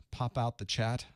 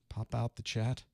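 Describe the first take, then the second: No difference in how they are said.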